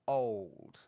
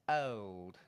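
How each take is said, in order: First: The vowel is darkened, sounding a bit like or. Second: The vowel is a clear, pure o sound. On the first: This is how most people say it now. "most people now, including me, would do it more like this" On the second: This style is old-fashioned. "if you want to say it with a clear o"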